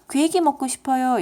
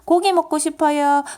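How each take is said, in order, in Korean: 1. 첫 음절의 모음은 'oe'예요. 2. 첫 음절의 모음은 'o'예요.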